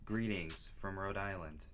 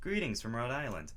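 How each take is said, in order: First: It is read in a flat, plain tone. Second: It is read with excited energy.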